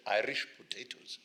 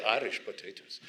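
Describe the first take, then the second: First: Lightly voiced Ugandan boy saying "Irish potatoes" with a rising end; boy's voice. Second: Said in the usual way. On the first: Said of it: "He said". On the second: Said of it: "He did say".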